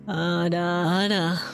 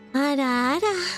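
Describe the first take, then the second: First: It is said in a very deep, low voice. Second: It is said in a regular, cute voice. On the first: "That's pretty low" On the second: "I'll do a regular one so you have a comparison. That's like a more cute ada ada"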